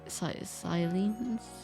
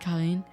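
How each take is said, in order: First: The name begins with an S sound. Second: The name begins with a K sound. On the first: The speaker calls it right. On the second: The speaker calls it wrong.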